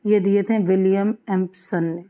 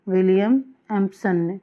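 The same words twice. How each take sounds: First: Said in the usual way. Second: Teacher drilling William Empson ने into memory; repeated for emphasis. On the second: Shown as a demonstration. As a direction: say William Empson ने again so it sticks. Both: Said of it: "ambiguity के ये seven points दिए किसने थे?".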